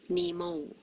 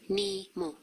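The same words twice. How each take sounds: First: The final vowel ends with a w-like glide. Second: The final vowel ends clean, without any glide. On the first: The speaker calls it wrong. "you usually pronounce Nemo like this" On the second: The speaker calls it right. "Don't put the W at the end when you pronounce it, okay? Just Nemo"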